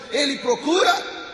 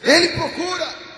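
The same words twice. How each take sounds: First: Procura rising and louder; stress on procura. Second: Ele hit high and loud, then falling; stress on Ele. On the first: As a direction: lean up into procura. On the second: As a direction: punch Ele, then drop. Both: Shown as a demonstration.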